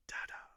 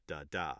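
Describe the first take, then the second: First: "DA-da" with the first one hit; stress on first syllable. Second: "da, DA" with the second one stressed; stress on last syllable. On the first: Teacher showing a trochee, "DA-da" stressed first. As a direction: punch the first "da", drop the second. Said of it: "accented syllable first like that". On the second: Teacher showing where most rhymes fall, "da, DA" stressed last. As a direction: land the weight on the second "da". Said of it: "have the accent on". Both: Shown as a demonstration.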